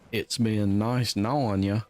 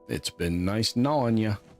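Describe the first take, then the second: First: It is said in a southern accent. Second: It is said in the speaker's ordinary accent.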